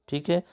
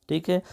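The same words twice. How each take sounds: The two takes are said the same way.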